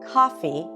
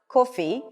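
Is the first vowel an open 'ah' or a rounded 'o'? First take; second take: open ah; rounded o. First: The first vowel is an open 'ah' sound. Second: The first vowel is a rounded 'o' sound. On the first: The speaker calls it right. "but coffee" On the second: The speaker calls it wrong. "it's not coffee"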